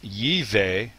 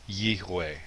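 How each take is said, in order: First: The middle consonant is a V sound. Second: The middle consonant is a W sound. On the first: The speaker calls it wrong. "rather than" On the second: The speaker calls it right. "it would be"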